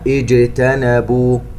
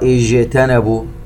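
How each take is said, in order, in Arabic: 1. صوت الجيم واضح ومقطوع، ولا صفير فيه كصوت sh. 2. صوت الجيم فيه صفير يميل نحو صوت sh. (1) "إنما اجتنبوا" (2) "لا نعطشها ونقرأ اجتنبوا ولا نجعلها شينا"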